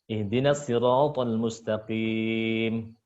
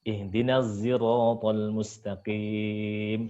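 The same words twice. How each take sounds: First: The s in sirat is a heavy emphatic s. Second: The s in sirat is blended toward a z. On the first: This is the reading of one traditional reciter. "shad dulu yang muqaddam" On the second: This is the reading of a third traditional reciter. "Terus hamzah"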